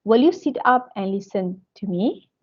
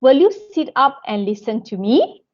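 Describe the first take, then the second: First: Tone stepping down towards "listen to me"; command intonation. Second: "me" lifted upward as a question; rising tune towards the final "me"; question intonation. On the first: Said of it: "the tone goes down". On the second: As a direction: ask it, letting the pitch climb on "listen to me". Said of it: "So the intonation goes up". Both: Shown as a demonstration.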